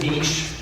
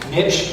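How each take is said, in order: First: The word is said the French way. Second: The word is said the English way. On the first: "I pronounce it niche mainly because of my high school French" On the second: "niche is also perfectly fine"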